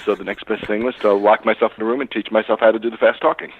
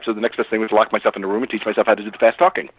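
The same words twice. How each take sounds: First: It is said at a slower pace. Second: It is said extremely fast.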